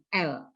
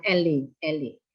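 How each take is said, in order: First: L as one syllable, "el"; correct French reading. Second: Elle misread as two syllables, "el-lee"; common mispronunciation. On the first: Shown as a demonstration. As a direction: say just L, with no vowel after it. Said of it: "itu cukup dibaca dengan L". (L dibaca satu suku kata, "el") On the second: Retold or imitated. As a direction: say elle wrongly with an added ee, "EL-ee". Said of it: "Saya sering mendengar orang mengatakan". (elle salah dibaca jadi "el-li")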